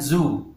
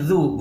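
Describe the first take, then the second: First: The consonant is a buzzing z sound. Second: The consonant is a soft dh sound. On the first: The speaker calls it wrong. "bukan zu" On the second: The speaker calls it right. "Ini zu"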